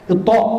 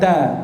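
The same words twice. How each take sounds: First: The t sound is thick and heavy. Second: The t sound is thin and light. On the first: The speaker calls it right. "Ta tebal" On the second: The speaker calls it wrong. "bukan ta"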